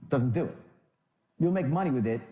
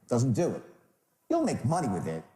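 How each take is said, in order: No difference in how they are said.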